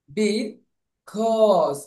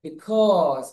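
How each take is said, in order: First: Because split in two, "bi ... kawz"; aw sound demo. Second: Because joined up as "bikawz"; aw sound demo. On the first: Teacher breaks down the au sound, because as "bi ... kawz". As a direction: pause after "be", then drawn-out "kawz" in because. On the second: Teacher repeats the whole word, because joined as "bikawz". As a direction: say because in one go with rounded "aw". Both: Shown as a demonstration. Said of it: "এ ইউ sound হবে".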